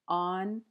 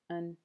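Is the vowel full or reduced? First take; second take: full; reduced. First: The word has a full, clear vowel. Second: The word has a weak schwa vowel.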